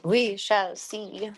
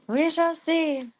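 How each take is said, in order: First: Said in the usual way. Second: Higher, louder, slow mock-grand "We shall see"; hammed-up dramatic reply; sing-song. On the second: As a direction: drag it out like a playful pronouncement.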